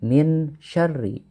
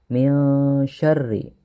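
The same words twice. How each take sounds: First: The n is pronounced fully and clearly. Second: The n is hidden and softly nasalized. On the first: The speaker calls it wrong. "jangan min syarri" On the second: The speaker calls it right. "maka cara membacanya adalah samar"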